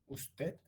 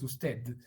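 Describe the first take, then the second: First: The final consonant is a voiceless stop. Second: The final consonant is a strongly voiced stop. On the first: "con la oclusiva también alveolar, pero sorda" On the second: "marcando tan fuertemente la oclusiva alveolar sonora"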